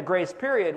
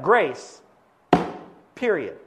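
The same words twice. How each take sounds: First: Said in the usual way. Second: "grace", long pause, then a falling "period"; pause before PERIOD. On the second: Shown as a demonstration. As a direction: split it: "grace" emphatic, full stop, "period" on its own. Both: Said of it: "but it goes like this".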